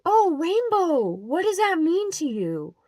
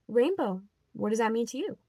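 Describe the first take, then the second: First: High, slow, sugary mock question; mock sweet churchy lady. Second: Said in the usual way. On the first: Vlogger mocks the church woman's question, high and sugary. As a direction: imitate her syrupy curiosity, pitched way up.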